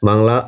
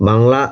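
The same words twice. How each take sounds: Both takes have the same delivery.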